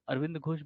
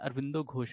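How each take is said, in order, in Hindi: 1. पहले नाम के अंत में कोई अंतिम स्वर नहीं है। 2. पहले नाम का अंत o स्वर से होता है। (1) "वो अरविंद घोष भी नहीं है" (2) "अरविंदो घोष है"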